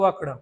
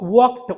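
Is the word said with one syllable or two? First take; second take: two; one. First: The ending has an extra vowel, two syllables. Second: The ending is a single consonant, one syllable. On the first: The speaker calls it wrong. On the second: The speaker calls it right.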